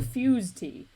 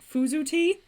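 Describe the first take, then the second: First: The brand name is one syllable, like 'fuse'. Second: The brand name is two syllables, ending in 'oo'. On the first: "Is that how you say it?" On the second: "my brain tells me that it's Fuzu tea, and that's wrong. But it sounds better"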